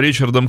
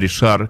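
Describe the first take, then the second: First: The name begins with a 'ch' sound. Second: The name begins with a 'sh' sound. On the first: This is how English speakers say the name. "Англоязычные люди называют его Ричардом" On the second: This is how French speakers say the name. "франкоговорящие люди говорят, что это Ришар"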